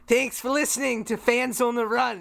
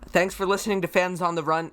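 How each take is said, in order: First: It is said in a put-on Australian accent. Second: It is said in the speaker's ordinary accent. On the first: "you got to do that Australian voice of yours again" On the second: "to normally end these episodes, I would say"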